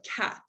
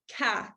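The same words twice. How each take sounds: First: Said in the usual way. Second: Ca with the final t left off; dropped final t. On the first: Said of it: "instead of cat". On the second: Shown as a demonstration. Speech therapist demonstrating ca with no final t. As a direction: cut ca short, no final t sound. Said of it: "leaving end sounds off of words like".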